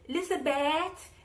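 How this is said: It is said in a Nigerian accent. "in the Nigerian accent that um that I came across"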